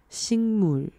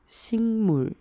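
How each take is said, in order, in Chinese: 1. 第一个音节以ng音结尾。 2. 第一个音节以ng音结尾。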